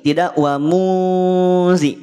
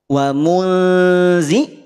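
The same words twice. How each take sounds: First: "muzi" slow and heavy like zo, jaw raised; thick zal, wrong. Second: "muzi" slow with thin zal, lips drawn back. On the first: Teacher asking students to compare the heavy second take. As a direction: say "wa muzi" thick to show the error. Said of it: "bunyi yang kedua muzi". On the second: Teacher asking students to compare the thin first take. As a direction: stretch "Wa muzi" out light and thin. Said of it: "Bunyi yang pertama muzi". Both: Shown as a demonstration.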